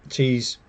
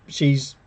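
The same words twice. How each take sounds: The two takes are said the same way.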